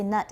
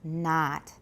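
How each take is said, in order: First: The vowel is a short 'uh' sound. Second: The vowel is an open 'ah' sound. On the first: The speaker calls it wrong. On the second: The speaker calls it right.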